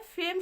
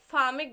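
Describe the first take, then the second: First: It is one syllable with an 'ay' vowel. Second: It is two syllables with an 'aa' vowel. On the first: The speaker calls it right. "फेम सही है" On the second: The speaker calls it wrong. "फामे गलत है"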